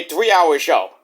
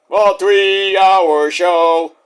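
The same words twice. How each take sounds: First: Said in the usual way. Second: Very slow, stretched-out monotone; exaggerated long-winded repeat; mock drawl. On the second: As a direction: drag out every word of "three-hour show". Drawn-out mocking repeat.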